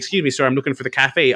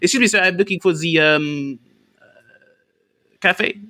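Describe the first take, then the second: First: It is said smoothly, without hesitation. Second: It is said haltingly, pausing before cafe.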